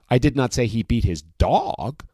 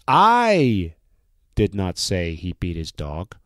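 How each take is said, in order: First: The stress is on the word dog. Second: The stress is on the word I.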